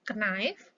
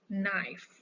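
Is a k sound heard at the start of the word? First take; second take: yes; no. First: A k sound is heard at the start. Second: The word starts with an n sound. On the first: The speaker calls it wrong. "bukan hike dan knife" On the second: The speaker calls it right. "knife itu silent letternya adalah k"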